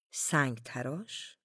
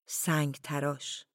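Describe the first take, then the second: First: "سنگ تراش" drawn out slowly, rising at the end; puzzled echo question. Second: Said in the usual way. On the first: A narrator's reading. Villagers wondering about the word "سنگ تراش", puzzled rising question. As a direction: slowly query "سنگ تراش" with a final lift.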